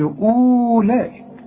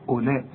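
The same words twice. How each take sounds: First: The first vowel is long; the waw is sounded. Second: The first vowel is short; the waw is silent. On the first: The speaker calls it wrong. "اوعى تقول لي أولئك، لا" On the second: The speaker calls it right. "شوف أولئك ... أولا كأن الواو غير موجودة"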